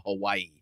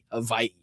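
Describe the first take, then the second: First: Said in the usual way. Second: Hawaii with a V sound, "ha-VAI"; playful "Havai'i" for Hawaii; playful Hawaii pronunciation. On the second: Pretend. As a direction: say Hawaii with the W turned into a V. Host repeats name with a v.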